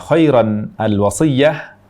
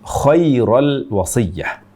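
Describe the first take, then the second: First: The n sound after khair is kept. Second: The n sound after khair is dropped. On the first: The speaker calls it right. "Kesalahan pertama, membaca kata khairan al-wasiyah" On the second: The speaker calls it wrong. "Ini berarti menghilangkan huruf nun"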